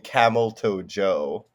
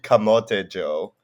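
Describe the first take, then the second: First: The name sounds like English 'camel toe'. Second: The name is said as Tagalog 'kamote'. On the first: The speaker calls it wrong. "I've had people call me Camel Toe Joe" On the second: The speaker calls it right. "it's actually Kamote Joe"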